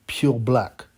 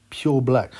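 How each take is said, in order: Both takes have the same delivery.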